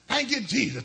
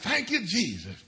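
First: The phrase is said at a faster pace. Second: The phrase is said at a slower pace.

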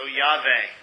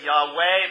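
First: The middle consonant is a V sound. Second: The middle consonant is a W sound. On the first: The speaker calls it right. "it's a V. Okay? So Yahweh" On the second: The speaker calls it wrong. "Most people say Yahweh, but it's not a W"

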